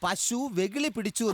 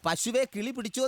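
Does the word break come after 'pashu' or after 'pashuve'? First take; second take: after pashu; after pashuve. First: The break comes after 'pashu', before 'vekili'. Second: The break comes after 'pashuve', before 'kili'. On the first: The cow went mad. The speaker calls it right. "എന്ന് ഇന്നത്തെ പത്രത്തിൽ ഞാനും വായിച്ചു" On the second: A bird caught the cow. The speaker calls it wrong. "എന്നല്ല"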